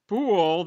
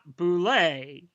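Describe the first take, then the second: First: The word rhymes with pool. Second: The word does not rhyme with pool. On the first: The speaker calls it right. "Boule that rhymes with pool" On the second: The speaker calls it wrong. "is not Boulay"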